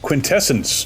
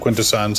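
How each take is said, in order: First: The name ends with a 'sence' sound. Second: The name ends with a 'sons' sound. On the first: This is a made-up pronunciation. The speaker calls it wrong. "they called them Quintessence" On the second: This is the established name. The speaker calls it right. "they didn't call them Quintessons"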